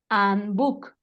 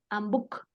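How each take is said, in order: First: It is said at an ordinary, unhurried pace. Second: It is said quickly, rushing the two words.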